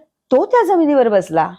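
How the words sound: The stress is on the word तो.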